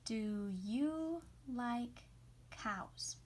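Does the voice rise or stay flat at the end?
flat. The voice does not rise at the end.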